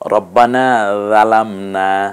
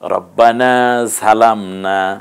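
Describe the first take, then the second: First: The second word starts with a soft 'dh' sound. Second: The second word starts with a 'zh' sound. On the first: "রাল দিয়ে বলেছি" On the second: "ঝা দিয়ে বলেছি"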